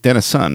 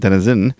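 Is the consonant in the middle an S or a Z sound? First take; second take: S; Z. First: The middle consonant is a hissed S sound. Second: The middle consonant is a buzzed Z sound. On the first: The speaker calls it right. "Not with a Z, so like Denison" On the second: The speaker calls it wrong. "not Denison"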